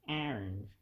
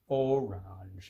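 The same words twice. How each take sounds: First: The O at the start is weakly pronounced. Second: The O at the start is clearly pronounced. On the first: The speaker calls it wrong. "I don't pronounce the O very well" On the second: The speaker calls it right. "it's orange"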